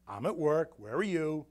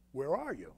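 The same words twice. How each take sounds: First: Retold with a mild sarcastic edge. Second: Said in the usual way. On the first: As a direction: toss the question back, a touch sarcastic. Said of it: "Kinda, like, sarcastic".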